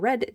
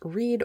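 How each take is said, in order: First: The vowel is short, rhyming with bed. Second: The vowel is long, rhyming with seed. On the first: It is the colour or the past tense of the verb. "this was going to be pronounced red" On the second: It is the present tense of the verb. "can be pronounced read or red depending on the context"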